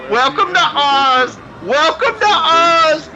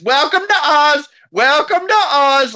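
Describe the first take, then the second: First: High, slow, drawn-out mock announcer call; muffled old man announcer. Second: High, drawn-out mock greeting call; muffled old man announcer. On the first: Masked old man calling out to the actors in a drawn-out mock announcer voice. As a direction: mimic the masked old man greeting wrestlers. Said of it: "you keep hearing him say". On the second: Masked old man greeting the actors over and over in a drawn-out mock announcer voice. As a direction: repeat the old man's drawn-out welcome over and over. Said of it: "old man in a rubber mask is".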